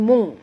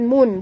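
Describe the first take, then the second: First: The n is hidden in a nasal hum. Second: The syllable ends in a clear n. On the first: The speaker calls it right. "kena sembunyikan bunyi nun ke dalam kaf disertai dengung" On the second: The speaker calls it wrong. "Bukannya M U M U N mun, bukan ya"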